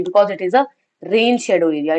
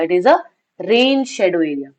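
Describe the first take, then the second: First: Said in the usual way. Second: Slow, stressed repeat. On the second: Shown as a demonstration. Teacher repeats the answer to students, very slow and stressed. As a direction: repeat "rain shadow area" very slowly, leaning on "rain".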